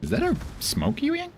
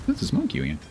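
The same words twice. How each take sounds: First: Much higher, rising on "a"; squeaky disbelieving query; high-pitched rising question; high surprised question. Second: Said in the usual way. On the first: Shown as a demonstration. Said twice, question then statement.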